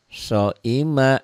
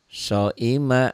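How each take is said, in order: No difference in how they are said.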